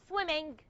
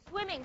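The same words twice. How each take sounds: First: The word ends with an audible hard g. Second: The word ends with a nasal ng, no g. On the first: The speaker calls it wrong. "Not swimming" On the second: The speaker calls it right. "There's no ga"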